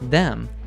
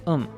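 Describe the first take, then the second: First: The word starts with a clear TH sound. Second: The word starts without the TH sound. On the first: "instead of" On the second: "we natives usually drop the first sound"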